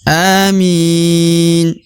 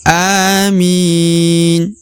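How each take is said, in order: First: The word ends on the consonant n. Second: The same.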